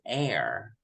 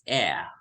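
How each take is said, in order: First: The final r sound is pronounced. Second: The final r sound is dropped. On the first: "American would this would read that as air" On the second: "British would read it as air. So it's um it's like being omitted"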